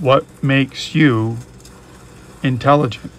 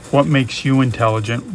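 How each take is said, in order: First: Drawn-out "what makes you", pause, then "intelligent"; slow right down and pause before "intelligent"; deliberate question, a long gap before "intelligent"; slow, pondering repeat. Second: Said in the usual way. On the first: Real, not acted. Question repeated slowly for thought.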